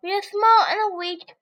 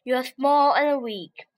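First: Higher, louder rabbit. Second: Slow scornful lion; lion mocking small animals, slow. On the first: Acted. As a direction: echo the lion's taunt back at him. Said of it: "said clever Rabbit". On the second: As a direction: sneer it slowly like a big cat. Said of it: "said lion".

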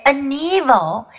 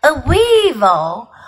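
First: "an evil" with a vowel opening evil; "an evil" articulation. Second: "a weevil" with a clear w; "a weevil" articulation. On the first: Creature correcting what was heard, "an evil" without a w. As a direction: say "an evil" with no w sound. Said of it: "He said a weevil". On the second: Creature correcting what was heard, "a weevil" with a clear w. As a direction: start "weevil" on a rounded w. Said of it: "he didn't say an evil". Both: A narrator's reading.

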